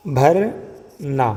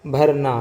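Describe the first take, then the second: First: بھرنا drawn out very slowly, each sound held; slow sounded-out word. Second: Said in the usual way. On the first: Shown as a demonstration. Teacher sounding out بھرنا slowly for students. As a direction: stretch بھرنا so students hear the aspirated bh. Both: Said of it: "بھو، بھو کی آواز".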